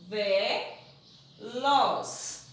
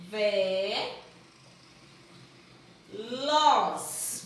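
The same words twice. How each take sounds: First: "Ve-" and "los" said apart with a pause; split into syllables. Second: "Ve-" then "los" spoken apart, louder; split into syllables. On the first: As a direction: break "Ve-" from "los" for the kids. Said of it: "não pode separar da vogal". (sílabas "Ve-" e "los" separadas) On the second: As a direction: separate "Ve-" and "los" with a pause. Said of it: "Junta aqui agora". (sílabas separadas, "Ve-" e "los") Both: Shown as a demonstration.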